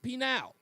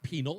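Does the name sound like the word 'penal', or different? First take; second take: different; like penal. First: It does not sound like 'penal'. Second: It sounds like the word 'penal'. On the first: The speaker calls it right. "it's Pinal" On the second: The speaker calls it wrong. "It's not penal"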